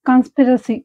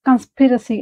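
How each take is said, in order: The two takes are said the same way.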